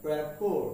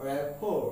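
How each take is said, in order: The two takes are said the same way.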